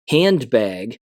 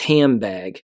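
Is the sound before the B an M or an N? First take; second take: N; M. First: The word keeps its N and D sounds. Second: The N becomes an M before the B.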